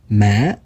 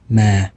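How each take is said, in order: First: The pitch dips then rises like a question. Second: The pitch is low and deep. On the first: It means grave. "it sounds like a question almost" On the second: It means but. "The deeper tone in the letter A"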